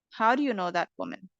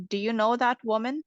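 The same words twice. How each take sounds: First: Wh-question stepping down from "How"; falling intonation. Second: Yes-no question lifting towards "woman"; rising intonation. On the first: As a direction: drop the voice on "woman". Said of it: "which ones have the falling". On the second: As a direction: let "woman" tilt up at the end. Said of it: "sentences have the rising intonation". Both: Shown as a demonstration.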